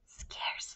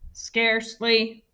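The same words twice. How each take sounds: First: The word is said in a breathy whisper. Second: The word is said in a flat robotic voice. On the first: "Now I want you to say it in a whisper voice" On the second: "And now I want you to say it in a robot voice"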